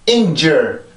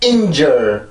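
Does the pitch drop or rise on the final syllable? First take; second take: rises; drops. First: The pitch lifts back up on the final syllable. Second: The pitch drops abruptly on the final syllable. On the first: The speaker calls it right. "한번 소리가 올라와야 돼요" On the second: The speaker calls it wrong. "이렇게 뚝 떨어뜨리게 되는데"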